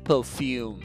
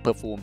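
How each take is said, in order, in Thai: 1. ออกเสียงแบบภาษาอังกฤษที่ชัดกว่า 2. ออกเสียงแบบสำเนียงไทย (1) "ถ้าจะออกเสียงให้มันชัดขึ้นจริงๆอาจจะออกเสียงประมาณว่า" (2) "ภาษาไทยมันก็อาจจะออกเสียงแบบ"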